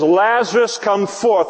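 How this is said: It is said loudly and with full confidence. The speaker is fully confident it will happen. The speaker calls it right. "there's no mumbling"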